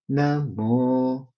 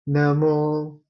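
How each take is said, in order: First: The syllable mo is on a low pitch. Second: The syllable mo is on a high pitch. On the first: "the intonation is going low" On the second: "the intonation is going high"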